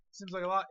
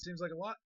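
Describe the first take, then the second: First: Louder, with a punch on "lot"; more emphatic. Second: Said in the usual way. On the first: Shown as a demonstration. Cooking host repeating the line with more punch. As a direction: lean harder into "Seems like a lot".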